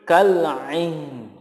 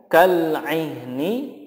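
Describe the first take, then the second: First: The last word ends on a consonant. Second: The last word ends with a vowel. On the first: The reading stops here. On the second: The reading continues without stopping.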